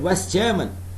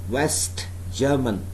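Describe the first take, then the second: First: The t at the end of West is dropped. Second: The t at the end of West is pronounced. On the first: "So that means I am dropping the sound t of West" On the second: "I did not say West German"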